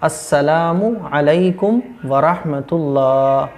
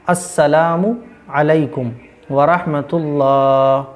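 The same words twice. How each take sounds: First: The final u is kept before a separate alaikum. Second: The final u is kept before a separate alaikum.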